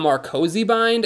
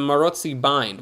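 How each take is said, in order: First: The name has a 'k' sound after 'Mar'. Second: The name has no 'k' sound after 'Mar'. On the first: The speaker calls it wrong. "Americans call the Marcosi bind" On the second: The speaker calls it right. "The C comes after the O!"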